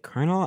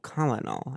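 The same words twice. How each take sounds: First: It sounds like 'kernel', with two syllables. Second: It sounds like the spelling, 'col-o-nel'. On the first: This is the usual pronunciation. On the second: The name is said the way it is spelled.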